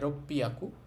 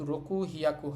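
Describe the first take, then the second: First: The middle has a doubled p sound. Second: The middle has a k and h sound. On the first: The speaker calls it right. "এটা হবে রপ্পিয়াকু" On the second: The speaker calls it wrong. "রকু হিয়াকু হবে না"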